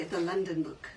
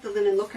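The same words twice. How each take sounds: First: "London" said in place of linen; "London" as a slip for linen; slip of the tongue. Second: Said in the usual way. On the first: Shown as a demonstration. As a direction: say "London" as the mistaken word. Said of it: "I keep wanting to say". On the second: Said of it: "I keep saying".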